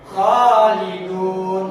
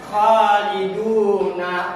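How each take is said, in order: First: The final vowel is dropped, ending on n. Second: The word ends with a final vowel sound. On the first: The reader stops at this word. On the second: The reading continues without stopping.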